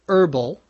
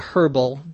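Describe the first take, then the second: First: The word begins with a vowel, no H sound. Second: The word begins with an audible H sound. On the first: "we don't normally pronounce the H. ... most people say" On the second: "It is possible to say"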